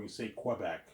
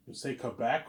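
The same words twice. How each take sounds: First: "Quebec" with kw at the start; "Quebec" pronounced kweh-BEC. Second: "Quebec" with a plain k at the start; "Quebec" pronounced kuh-BEC. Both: Shown as a demonstration. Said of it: "two ways of pronouncing it".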